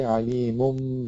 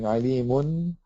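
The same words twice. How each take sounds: First: The word ends with a closed-lip nasal m sound. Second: The word ends with a clear n sound. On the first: The speaker calls it right. "you close the lips, but you do pronounce the gunna" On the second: The speaker calls it wrong. "instead of saying alimun"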